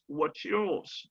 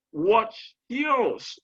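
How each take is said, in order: First: Said in the usual way. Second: WHAT'S and YOURS separated, high and drawn out; careful stressed model. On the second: Shown as a demonstration. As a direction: teach "What's yours?" word by word, raised pitch on both. (« What's yours » articulé mot à mot, voix haute, bien accentué) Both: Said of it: "prenez le soin de les prononcer".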